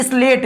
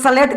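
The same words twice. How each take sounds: First: स्लेट said with an "i" in front, "is-let"; leading "is" sound. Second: सलेट said as "sa-let", no leading "i"; full "sa" sound. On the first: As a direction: open स्लेट with "is". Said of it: "यहाँ पर इस सा को मैं ऐसे बोल रहा हूँ". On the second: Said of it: "सा क्यों नहीं बोल रहे?". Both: Shown as a demonstration.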